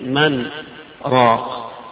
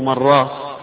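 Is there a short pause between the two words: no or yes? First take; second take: yes; no. First: A brief pause separates the two words. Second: The two words run together with no pause. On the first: It is heard as two separate words. The speaker calls it right. "وسكت هذه السكتة الخفيفة" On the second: It could be mistaken for a word meaning broth seller. The speaker calls it wrong. "فيظن إنه مراق هتلو بائع مرق"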